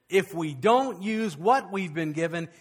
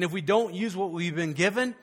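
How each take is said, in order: First: Slow, weighted "what we've been given"; slow down and lean on "what" in the repeat; deliberate emphasis. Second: Said in the usual way. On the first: Real, not acted.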